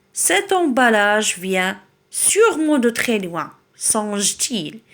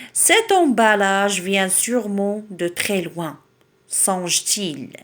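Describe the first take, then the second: Both takes have the same delivery.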